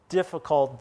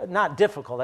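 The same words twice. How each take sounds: First: Said in the usual way. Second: Not punched higher and louder; stress on not. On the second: Real, not acted. Pastor corrects himself with a stressed not. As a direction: hit not in not difficult hard. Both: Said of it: "I shouldn't say that".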